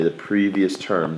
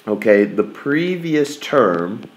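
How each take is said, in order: First: Quieter slow repeat, previous falling; soft slow repeat of previous; stress on previous. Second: Previous drawn out with a rise; slow teacher emphasis on previous; slow stress on previous. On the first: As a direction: settle the phrase down softly. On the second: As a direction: linger on previous. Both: Shown as a demonstration. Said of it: "that's what it's all about today".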